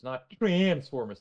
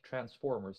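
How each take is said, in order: First: The 'trans' syllable is said with strong emphasis. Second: The 'trans' syllable is said with little emphasis. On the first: The speaker calls it wrong. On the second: The speaker calls it right.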